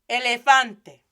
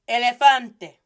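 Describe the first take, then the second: No difference in how they are said.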